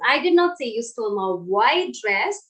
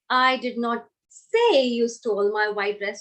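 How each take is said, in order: First: The word white carries the stress. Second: The word say carries the stress. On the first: A dress of another colour was stolen. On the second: It was implied some other way, not said. "if I focus on the word say"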